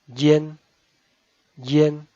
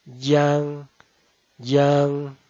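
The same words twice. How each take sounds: First: Yen with a short light n; Mandarin front nasal. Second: Yang with a long stressed ng; Mandarin back nasal. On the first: Teacher contrasts front nasal yen, short and light. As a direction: keep the yen nasal brief. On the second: Teacher contrasts back nasal yang, long and stressed. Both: Shown as a demonstration. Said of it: "esta se pronuncia".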